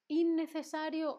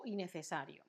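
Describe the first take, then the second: First: "innecesario" with a long, doubled n; double N option. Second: "innecesario" with one short n, as "inecesario"; single N option. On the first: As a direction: hold both ns in "innecesario". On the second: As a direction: use just one quick n in "innecesario". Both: Shown as a demonstration. Quiz offers double versus single N.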